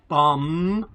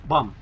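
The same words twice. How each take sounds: First: The M at the end is drawn out long. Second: The M at the end is cut short quickly. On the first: The speaker calls it wrong. "It's not a" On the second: The speaker calls it right. "It's a short M"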